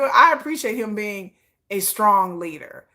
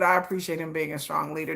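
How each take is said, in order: First: "I appreciate him being a strong leader" said slowly, each word pressed; slow emphatic. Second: "but I appreciate him being a strong leader" dropped lower and softer; softer repeat. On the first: Vlogger to viewers, firmly stressing her praise, slow and deliberate. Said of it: "but I appreciate him being a strong leader". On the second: Vlogger to viewers, repeating her praise lower and softer. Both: Shown as a demonstration.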